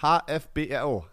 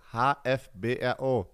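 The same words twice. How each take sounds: First: Dictating. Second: Slow, spelled letter by letter; dictating. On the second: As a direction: spell out each letter clearly for the listener. (langsam diktiert, Buchstabe für Buchstabe) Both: Shown as a demonstration. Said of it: "Alles groß geschrieben".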